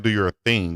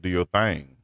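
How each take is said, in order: First: It is said in a standard accent. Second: It is said in a Southern accent. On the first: This is how outsiders say it. The speaker calls it wrong. "we don't say do your thing" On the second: This is how people back home say it. The speaker calls it right. "we say do your thing"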